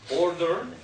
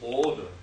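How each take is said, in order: First: The R after the vowel is pronounced. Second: The R after the vowel is dropped. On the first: "in American pronunciation, you pronounce that R here" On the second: "In British English, you say order. It's a little bit snobbier"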